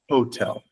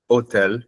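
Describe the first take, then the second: First: The word starts with a clear H sound. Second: The word starts without an H sound. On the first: The speaker calls it right. "we say hotel" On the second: The speaker calls it wrong. "So it's not hotel"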